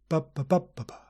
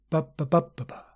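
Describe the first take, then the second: No difference in how they are said.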